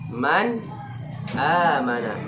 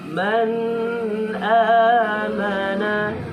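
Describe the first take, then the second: First: The n is clear and short, without nasal hum. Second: The n is nasalized and held longer. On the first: The speaker calls it right. "Harus jelas. Tak punya durasi waktu. Tak punya dengung" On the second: The speaker calls it wrong.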